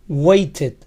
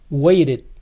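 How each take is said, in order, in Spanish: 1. La t del medio es una t clara. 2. La t del medio suena como una r suave.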